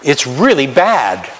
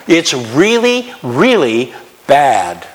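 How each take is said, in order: First: Said in the usual way. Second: 'really' 두 번을 아주 천천히 길게 늘여 강조; slow stressed really. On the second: Shown as a demonstration. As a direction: drag out each really slowly. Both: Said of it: "Can I say that?".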